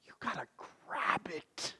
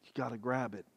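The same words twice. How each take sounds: First: Hushed whispered urging. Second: Said in the usual way. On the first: Real, not acted. Preacher whispering to the congregation to grab life. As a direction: whisper it close to the listener.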